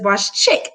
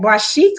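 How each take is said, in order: First: The last word sounds like 'chick'. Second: The last word sounds like 'sheek'. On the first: "That's how I pronounce it" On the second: "it's like Boss Chic"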